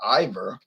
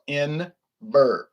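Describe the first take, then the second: First: It is said without an N sound. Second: It is said with an N sound. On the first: The speaker calls it wrong. "it's not Ivor" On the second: The speaker calls it right. "I N V E R, Inver"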